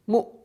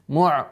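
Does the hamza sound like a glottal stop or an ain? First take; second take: glottal stop; ain. First: The hamza stays a light glottal stop. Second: The hamza turns into a throaty ain sound. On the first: The speaker calls it right. "нужно оставлять, оставлять в, э, в полости" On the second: The speaker calls it wrong. "что она переходит в звук айн"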